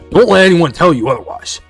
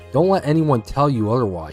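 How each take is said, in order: First: It is read in a put-on imitated voice. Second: It is read in the speaker's normal voice.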